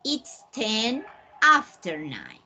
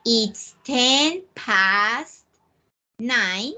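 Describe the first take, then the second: First: "It's ten after nine" said slowly, leaning on "after"; slow model sentence. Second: "It's ten past nine" said very slowly, word by word; slow model sentence. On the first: Teacher modelling the alternative time phrase slowly. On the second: Teacher modelling the time phrase slowly for students. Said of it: "You may say". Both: Shown as a demonstration.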